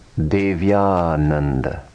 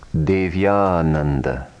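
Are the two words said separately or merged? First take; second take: merged; merged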